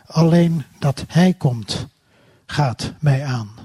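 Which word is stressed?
mij. The stress falls on the word mij.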